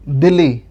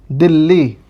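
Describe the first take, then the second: First: "दिल्ली" with a single short l, dee-lee; short l without addhak. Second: "दिल्ली" with a held, doubled l, dil-lee; doubled l with addhak. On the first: Teacher showing the spelling without the addhak, single short l. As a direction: say "दिल्ली" as d̪ɪli, no doubled l. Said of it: "अगर हम इसको ना लिख-, लगाएं". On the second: Teacher showing the addhak doubling the l, held double l. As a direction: say "दिल्ली" as d̪ɪlːi, lean on the double l. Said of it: "अद्धक को हम जब लगा देते हैं". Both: Shown as a demonstration.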